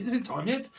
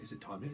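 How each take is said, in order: First: High-pitched eager question; impatient asking. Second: Low, soft question; quiet asking. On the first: Someone watching the clock, impatient high pestering. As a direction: raise the pitch, pester for an answer. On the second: Someone watching the clock, quiet asking. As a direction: ask it under your breath. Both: Acted.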